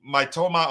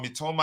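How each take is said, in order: First: Mitoma said as "my-TOH-ma"; alternative pronunciation. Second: Mitoma said as "mee-TOH-ma"; alternative pronunciation. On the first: Host unsure of a player's name, trying Mitoma as "my-TOH-ma". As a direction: open the first syllable of Mitoma like "my". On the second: Host offering a second try at a player's name, Mitoma as "mee-TOH-ma". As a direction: start Mitoma with a short "mee". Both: Shown as a demonstration. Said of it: "which one is the correct pronunciation".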